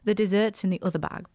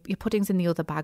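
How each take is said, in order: First: It is said in a posh voice. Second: It is said in a plain, ordinary voice.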